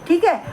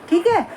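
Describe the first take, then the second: Both takes have the same delivery.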